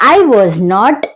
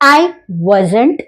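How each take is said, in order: First: Was and not are said as two words. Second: Was and not merge into one short word.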